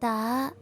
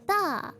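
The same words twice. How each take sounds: First: The pitch rises from low to high. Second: The pitch falls from high to low. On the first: "The second one is like from low to high" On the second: "the fourth one is from high to low"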